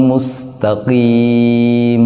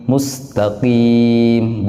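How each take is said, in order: Both takes have the same delivery.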